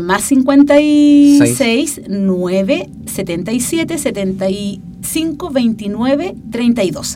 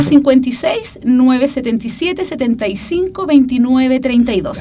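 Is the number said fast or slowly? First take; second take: slowly; fast. First: The number is said more slowly. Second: The number is said at normal speed.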